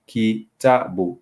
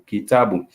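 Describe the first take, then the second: First: Kitabu slowly, each syllable ki ta bu spaced; teacher modelling kitabu slowly; slow Swahili demo. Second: Said in the usual way. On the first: Shown as a demonstration. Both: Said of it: "to make the syllable".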